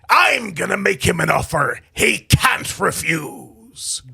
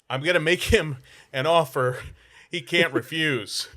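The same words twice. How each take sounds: First: It is said in an old-timey pirate voice. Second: It sounds surprised but played off casually.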